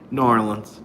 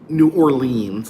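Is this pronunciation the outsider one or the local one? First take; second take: local; outsider. First: It is pronounced the way locals say it. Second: It is pronounced the way an outsider says it. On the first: The speaker calls it right. "You say New Orleans" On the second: The speaker calls it wrong. "you don't say New Orleans like like I do"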